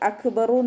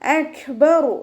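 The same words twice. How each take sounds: First: The k is stopped abruptly without breath. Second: The k is released with a little breath. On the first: The speaker calls it wrong. "നോതരുത്" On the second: The speaker calls it right. "കുറച്ച് air pass ചെയ്യുന്ന ... അക്ബറു എന്നുള്ള സൗണ്ടാണ് കൊടുക്കേണ്ടത്"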